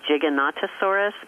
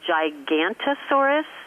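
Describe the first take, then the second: First: The name is said with six syllables. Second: The name is said with five syllables. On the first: The speaker calls it right. "It's actually" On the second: The speaker calls it wrong. "I like to mispronounce it intentionally"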